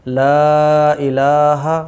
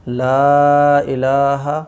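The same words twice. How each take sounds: No difference in how they are said.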